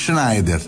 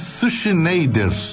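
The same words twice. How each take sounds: First: The name is said with German sounds. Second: The name is said with Portuguese sounds. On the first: The speaker calls it right. "em vez de Schneider" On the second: The speaker calls it wrong. "seria como chamar o alemão ali da esquina de Schneider"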